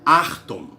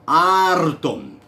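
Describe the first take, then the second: First: The R is guttural, made in the throat. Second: The R is trilled with the tongue tip. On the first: The speaker calls it wrong. "virou francês? Tá transformando o grego numa pronúncia francesa?" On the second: The speaker calls it right. "Levanta essa língua no palato aí, vibra"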